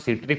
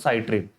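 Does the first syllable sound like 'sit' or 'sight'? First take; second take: sit; sight. First: The first syllable sounds like 'sit'. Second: The first syllable sounds like 'sight'. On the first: "कोई बोलता सिट्रिक" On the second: "कोई बोलता साइट्रिक"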